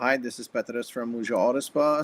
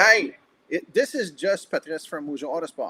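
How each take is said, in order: First: The greeting sounds flat and unenthusiastic. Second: The greeting sounds joyful and energetic, not overdone.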